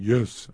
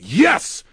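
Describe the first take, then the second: First: It is said quietly and weakly. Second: It is yelled loudly and strongly.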